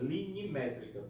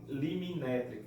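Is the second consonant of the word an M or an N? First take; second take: N; M. First: The second consonant is n, then m. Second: The second consonant is m, then n. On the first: The speaker calls it right. "é linimétrica" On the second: The speaker calls it wrong. "para não falar liminétrica"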